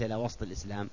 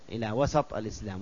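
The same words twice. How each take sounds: First: The S sound has no vowel after it. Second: The S sound is followed by an a vowel. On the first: The speaker calls it wrong. "وليس" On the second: The speaker calls it right. "إلى وسط بفتح السين"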